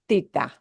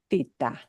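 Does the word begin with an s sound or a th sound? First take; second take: th; th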